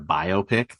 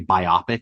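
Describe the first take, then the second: First: It is split into bio plus pic. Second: It is not split into bio plus pic. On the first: The speaker calls it right. "it's a biography picture" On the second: The speaker calls it wrong. "when people say biopic instead of"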